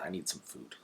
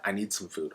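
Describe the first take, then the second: First: Much softer, low muttered request; old owl muttering, far softer and lower; under his breath. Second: Said in the usual way. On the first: Acted. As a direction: mumble it low and barely audible. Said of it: "very quietly under his breath".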